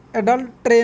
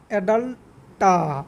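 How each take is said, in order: First: অ্যাডাল্ট্রে said with the wrong clipped ending; wrong pronunciation. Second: অ্যাডাল্টা drawn out slowly, each syllable clear; slow, careful অ্যাডাল্টা as the right way; correct pronunciation. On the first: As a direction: say অ্যাডাল্ট্রে the way it should not be said. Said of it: "অ্যাডাল্ট্রে নয়". (ভুল উচ্চারণে অ্যাডাল্ট্রে) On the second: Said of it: "এরকম উচ্চারণ হবে". (ধীরে স্পষ্ট করে অ্যাডাল্টা উচ্চারণ) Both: Shown as a demonstration.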